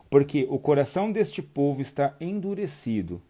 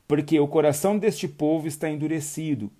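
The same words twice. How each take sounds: First: It is read at a slower speed. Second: It is read at a normal speed.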